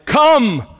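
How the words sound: It is said in a booming preacher voice.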